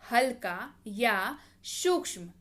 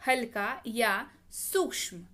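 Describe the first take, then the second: No difference in how they are said.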